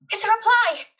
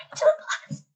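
First: Higher and louder excited cry. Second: Breathless high squeal; excited. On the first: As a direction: burst out with glee. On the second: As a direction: gasp it out in delight. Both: Real, not acted. Excited to get a reply.

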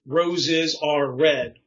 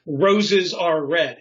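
First: "Roses are red" spoken very slowly, each syllable drawn out; slow rhythmic reading. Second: "Roses are red" slow and louder, "ROS-es are RED" rising and falling; up-down sing-song. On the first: Demonstrating doggerel rhythm, slow drawn-out reading. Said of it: "you can hear it". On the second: Showing the group the up-down beat, slow louder sing-song. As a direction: bounce "Roses are red" up and down like a nursery rhyme. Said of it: "It's this up, down, up, down". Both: Shown as a demonstration.

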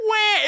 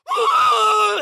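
First: Short mock wail; brief, high kiddie wah; ordinary cry. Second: Long, piercing high squeal; ungodly scream. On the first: Shown as a demonstration. Storyteller showing what the scream was not, short mock cry. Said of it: "the most ungodly scream you've ever heard. It was not". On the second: Retold or imitated. Storyteller imitating the hit kid, ungodly long scream. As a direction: shriek it out at length like a pig squeal. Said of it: "the most ungodly scream you've ever heard".

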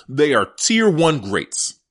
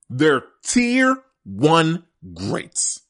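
First: Said in the usual way. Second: "tier one greats" drawn out slowly, each word weighted; slow emphatic repeat. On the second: Real, not acted. Host insisting to listeners, slow and emphatic.

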